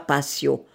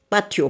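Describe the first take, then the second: First: The word is pronounced the French way. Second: The word is pronounced in a non-French way. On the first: The speaker calls it wrong. "c'est les imbéciles de français qui disent patio" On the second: The speaker calls it right. "Non, patio, un patio"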